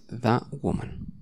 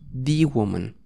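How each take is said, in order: First: The word 'the' is said plainly. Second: The word 'the' is strongly emphasized.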